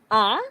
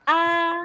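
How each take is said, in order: First: The pitch rises from low to high. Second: The pitch stays high and level. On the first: "Second tone, ... It's like you're questioning or asking" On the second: "First tone, you're like singing"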